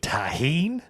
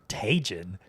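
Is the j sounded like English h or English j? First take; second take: English h; English j. First: The j is sounded like an English h. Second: The j is sounded like an English j. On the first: The speaker calls it right. "You mean tahine?" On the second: The speaker calls it wrong. "she had been pronouncing it Tajin"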